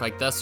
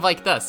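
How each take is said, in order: First: The voice is flat and low in energy. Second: The voice is bright and high in energy. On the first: "if I were to talk like this for the rest of the episode" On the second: "in my usual fun, haha, peppy voice"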